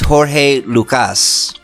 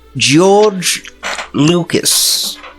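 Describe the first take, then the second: First: The name is said with foreign-sounding vowels and consonants. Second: The name is said with plain English sounds.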